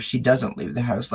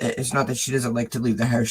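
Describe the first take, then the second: First: "doesn't" leaned on as the correction; stress on doesn't. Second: Said in the usual way. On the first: Shown as a demonstration. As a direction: set it right by hitting "doesn't".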